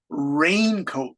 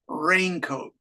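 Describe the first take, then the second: First: The stress falls on the first part, rain. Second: Both parts, rain and coat, get equal stress. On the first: "with the stress on rain" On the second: "there's equal on hairbrush and raincoat"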